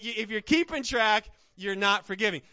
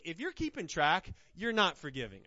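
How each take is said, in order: First: Louder, driving repeat of the point; loud emphatic repeat. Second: Said in the usual way. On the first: Real, not acted. Preacher repeating to his church, now loud. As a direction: punch it out at full force.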